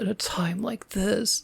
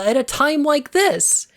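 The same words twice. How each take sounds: First: It is said in a flat monotone. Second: It is said with lively, emotional expression. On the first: The speaker calls it wrong. "talks in this fucking monotone" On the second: The speaker calls it right. "I need to have moments of"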